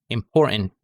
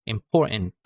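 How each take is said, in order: No difference in how they are said.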